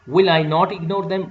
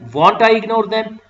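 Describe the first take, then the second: First: 'Will' and 'not' are said as separate full words. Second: 'Will not' is contracted into one short word. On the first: It is a formal way of asking. "This you will say in a formal way" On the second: It is an informal way of asking. "this you will say in an informal way"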